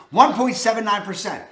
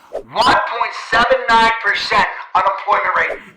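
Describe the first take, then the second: First: Said in the usual way. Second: Louder second take, every number hit hard; emphatic repeat. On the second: Shown as a demonstration. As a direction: drive the stat home, louder.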